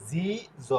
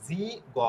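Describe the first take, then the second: First: জি named, then জ as a soft "jo"; ordinary G sound. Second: জি named, then গ as a hard "go"; exceptional G sound. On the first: Teacher contrasting two G sounds, demonstrating the soft জ. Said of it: "সাধারণ উচ্চারণ". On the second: Teacher contrasting two G sounds, demonstrating the hard গ. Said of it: "ব্যতিক্রম উচ্চারণ". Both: Shown as a demonstration.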